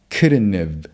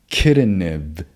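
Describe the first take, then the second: The two takes are said the same way.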